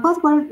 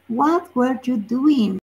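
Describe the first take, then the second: First: Said in the usual way. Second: Slow, careful title reading; slow, deliberate model sentence; read out slowly. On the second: Shown as a demonstration. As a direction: spell out the phrase what were you doing? slowly for the class.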